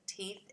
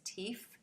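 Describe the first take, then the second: First: The word ends with a th sound. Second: The word ends with an f sound. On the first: "instead of" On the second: "voiceless F T H substitution"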